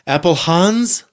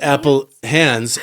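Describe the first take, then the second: First: The second part sounds like the name 'Hans'. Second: The second part sounds like the word 'hands'. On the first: The speaker calls it right. "like Hansel and Gretel" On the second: The speaker calls it wrong. "not Apple Hands"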